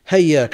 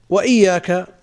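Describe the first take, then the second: First: The word starts with an h sound. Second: The word starts with an i vowel. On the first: This is a reading of some readers. "بالهاء بدل الهمزة" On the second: This is the reading of the seven readers. "بتشديد الياء في قراءة السبعة"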